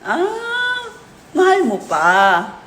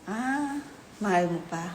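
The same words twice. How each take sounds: First: It is said in a sarcastic tone. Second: It is said in a disappointed tone.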